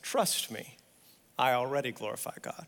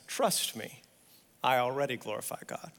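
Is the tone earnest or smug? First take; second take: smug; smug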